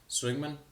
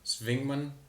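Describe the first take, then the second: First: The name is said with an English accent. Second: The name is said with a German accent.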